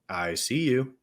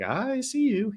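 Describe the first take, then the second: First: It is said strongly in a lower voice. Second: It is said much higher in pitch. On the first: The speaker sounds confident. "it probably didn't come out as strong as it sounds on the interview now" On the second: The speaker sounds nervous. "up an octave higher"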